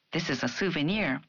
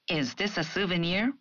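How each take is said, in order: First: "souvenir" falling at the end; falling statement. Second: "souvenir" rising at the end; rising question. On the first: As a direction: settle down on "souvenir". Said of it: "an affirmative sentence". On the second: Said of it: "a question". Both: Shown as a demonstration.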